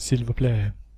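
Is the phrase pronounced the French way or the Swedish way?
French. The phrase is pronounced the standard French way.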